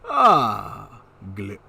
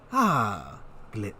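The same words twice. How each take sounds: First: It is said in Dionysus's put-on voice. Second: It is said in his natural voice.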